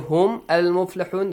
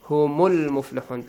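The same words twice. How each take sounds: First: A glottal stop is heard before al-muflihun. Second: Hum links straight into al-muflihun without a stop. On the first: The speaker calls it wrong. "this is wrong" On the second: The speaker calls it right. "because we have همزة الوصل, not همزة القطع"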